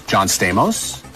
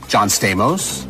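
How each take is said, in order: Both takes have the same delivery.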